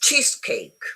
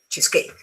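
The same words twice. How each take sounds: First: The stress is on the first part. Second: The stress is on the second part. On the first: The speaker calls it right. "the stress is um, um, on the first bit" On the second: The speaker calls it wrong.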